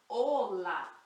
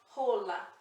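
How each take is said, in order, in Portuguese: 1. A palavra começa direto com a vogal. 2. A palavra começa com um som de H aspirado. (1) "aqui a gente fala ola" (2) "nunca fala rola"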